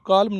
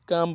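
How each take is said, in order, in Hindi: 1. m से पहले l की ध्वनि सुनाई देती है। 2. m से पहले l की ध्वनि सुनाई नहीं देती। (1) "इसको काल्म नहीं बोलना है" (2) "काम बोलना है"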